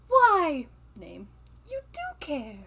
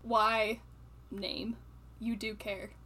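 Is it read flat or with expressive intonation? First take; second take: expressive; flat. First: It is read with expressive, grumpy intonation. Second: It is read flatly, without expressive intonation.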